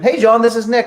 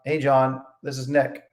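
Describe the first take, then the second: First: The greeting sounds upbeat, loud and warm. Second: The greeting sounds flat, quiet and unenthusiastic. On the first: The speaker calls it right. "speak up, be friendly" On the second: The speaker calls it wrong. "if you just go into the call like"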